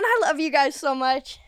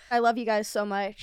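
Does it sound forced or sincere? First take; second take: sincere; forced. First: It sounds sincere and natural. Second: It sounds forced, like a hostage speaking.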